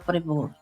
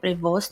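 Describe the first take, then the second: First: The name is said the French way. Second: The name is said the American way. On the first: "em francês fala Prévost" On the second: "americanos falam Prevost"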